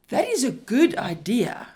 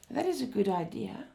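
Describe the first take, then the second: First: Loud, enthusiastic approval with the stress on is; strong, approving tone. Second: Lukewarm and unconvinced, falling off at the end; hesitant tone. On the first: Lecturer showing students the approving version, loud and enthusiastic. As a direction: say it like you truly love the idea. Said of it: "in a strong tone of voice". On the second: Lecturer showing students the unconvinced version, hesitant and lukewarm. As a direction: say it as if you doubt the idea. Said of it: "in a hesitant tone". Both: Shown as a demonstration.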